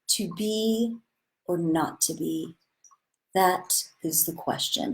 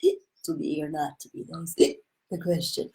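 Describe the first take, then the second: First: It sounds sincere and earnest, with integrity. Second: It sounds slurred, like a drunk person.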